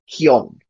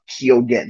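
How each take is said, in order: First: The middle g sound is left out. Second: The middle g sound is clearly pronounced. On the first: This is the Irish way of saying the name. "in Irish, how it would sound is Keown" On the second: This is the anglicized way of saying the name. "more anglicized way of Keoghan. He pronounces the G in his name"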